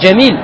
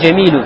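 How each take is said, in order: First: The word ends on the consonant, no final vowel. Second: The word ends with a final u vowel. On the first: The speaker stops on this word. The speaker calls it right. "говорят «джамиль»" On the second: The final vowel is kept, as when not stopping. The speaker calls it wrong. "они не говорят «джамилю»"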